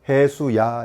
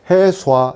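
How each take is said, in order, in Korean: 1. 두 모음 사이에 y 반모음을 넣어요. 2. 두 모음이 합쳐져서 하나의 'wa' 소리가 돼요. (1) "요 사이에 반자음 I, 반자음 E를 넣어요. 그래서 해수야, 이렇게" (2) "합쳐도 돼요. 해수와 이렇게 합쳐도 돼요. 그런데 해수와 이거 웃기잖아"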